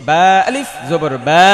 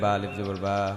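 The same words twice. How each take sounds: First: It is said with force and a set tune. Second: It is said weakly, without that force. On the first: The speaker calls it right. "এই সুর দিয়ে পড়তে হবে, এই জোর দিয়ে পড়তে হবে" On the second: The speaker calls it wrong. "তাহলে হবে না"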